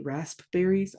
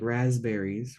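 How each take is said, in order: First: The P sound is pronounced. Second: The P sound is left out. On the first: "Does anybody say the P?" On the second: "We say it like raspberries, right? We don't say the P"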